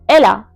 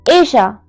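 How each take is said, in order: First: The middle consonant is a clear L sound. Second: The middle consonant is a soft Y-like sound. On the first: "If I were to pronounce this in English, I would have said probably Ella" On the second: "my double L will become je and it will change into Asia"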